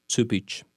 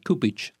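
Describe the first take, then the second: First: Cupich said as "tupitch"; correct pronunciation. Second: Kupich with a hard K sound; wrong pronunciation. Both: Shown as a demonstration. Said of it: "Not Kupich".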